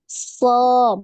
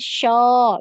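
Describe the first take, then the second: First: It starts with a tongue-tip s sound. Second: It starts with a mid-tongue sh sound. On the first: The speaker calls it right. "So, bukan show" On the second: The speaker calls it wrong. "bukan show"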